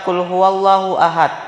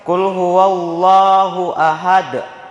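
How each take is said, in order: First: The final D stops flat without an echo. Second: The final D bounces with a heavy echo. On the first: The speaker calls it wrong. "salah itu" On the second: The speaker calls it right. "dibaca pantul dengan berat"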